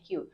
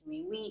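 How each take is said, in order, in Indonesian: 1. Kata itu diucapkan sebagai satu suku kata pendek. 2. Kata itu dieja menjadi tiga suku kata. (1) "itu bacanya Q" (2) "bukan kiwiwi"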